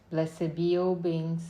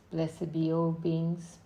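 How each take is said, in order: Both takes have the same delivery.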